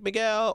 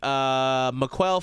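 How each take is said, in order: First: The middle consonant sounds like a g. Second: The middle consonant sounds like a k. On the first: The name is said as its owner says it. The speaker calls it right. "And I'd be like" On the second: The name is mispronounced as if spelled with a Q. The speaker calls it wrong. "they'd be like"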